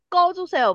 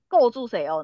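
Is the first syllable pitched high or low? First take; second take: high; low. First: The first syllable is pitched a bit higher. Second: The first syllable is pitched lower. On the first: The speaker calls it right. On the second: The speaker calls it wrong.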